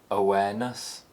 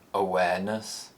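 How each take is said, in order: First: The pitch rises to a high point. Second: The pitch rises from a low starting point. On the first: "the high rise" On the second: "The low rise"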